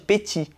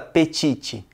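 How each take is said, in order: First: The word ends without a T sound. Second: The word ends with an audible T sound. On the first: The speaker calls it right. "não é para falar o T no final de petit" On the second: The speaker calls it wrong. "ninguém fala petite"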